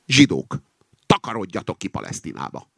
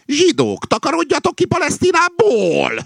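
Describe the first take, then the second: First: Said in the usual way. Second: Very high, loud yell; shouted slogan. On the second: A narrator's reading. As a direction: shriek it out as a corrected chant. Rooster corrects slogan by shouting it. (magas hangú, harsány kiabálás)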